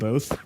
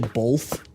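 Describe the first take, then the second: First: It is said without any L sound. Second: It is said with an L sound before th. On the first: This is the usual way to say it. "instead of both" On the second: This is how Midwesterners say it. "how people in the Midwest say both"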